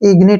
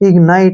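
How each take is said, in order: First: The second syllable has a short 'i' vowel. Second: The second syllable has a long 'eye' vowel. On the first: "इग्निट भी पढ़ सकते हैं" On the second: "इग्नाइट भी पढ़ सकते हैं"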